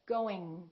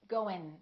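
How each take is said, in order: First: The ending is a back 'ng' sound. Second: The ending is a front 'n' sound. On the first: The speaker calls it right. "let the G just kind of stay there" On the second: The speaker calls it wrong. "produce it in the front of their mouth"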